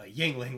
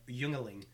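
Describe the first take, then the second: First: The name is pronounced the standard way. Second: The name is pronounced in a garbled way. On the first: The speaker calls it right. "that's how you say it" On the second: The speaker calls it wrong. "we fucking butchered the shit out of it"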